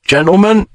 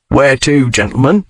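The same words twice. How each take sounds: First: Coachman calling out. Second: Coachman asking. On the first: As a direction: hail them from the box, raised and high. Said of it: "the driver called". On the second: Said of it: "the driver asked". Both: A narrator's reading.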